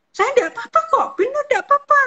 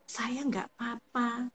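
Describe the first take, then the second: First: Much higher and louder, almost shouting "nggak apa-apa". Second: Softer, slower, held-back "Saya nggak apa-apa"; quiet and slow. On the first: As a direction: blurt it out high and loud, tense. (nada tinggi dan keras) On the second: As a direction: say it quietly, slowly, as if it's fine. (pelan dan lirih) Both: Shown as a demonstration. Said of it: "Kalau dengan nada yang misal".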